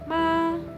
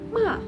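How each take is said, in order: First: The pitch stays high and flat. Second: The pitch drops sharply and forcefully. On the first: It means mother. "diucapkan dengan tinggi dan datar" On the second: It means to scold. "nadanya dihentakkan ... kayak marah gitu"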